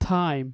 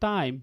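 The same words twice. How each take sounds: First: The first sound has a strong puff of air. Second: The first sound has no strong puff of air. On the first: "ওইখানে stress দিলে কি হবে" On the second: "যেখানে আমরা বলতাম"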